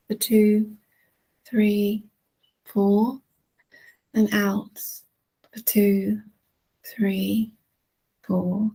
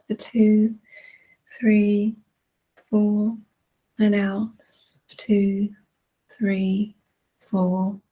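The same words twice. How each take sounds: The two takes are said the same way.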